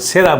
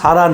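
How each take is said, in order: First: The first vowel sounds like 'eh'. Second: The first vowel sounds like 'ah'. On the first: The speaker calls it right. "সেরা বুল" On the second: The speaker calls it wrong. "উচ্চারণটা সারা নয়"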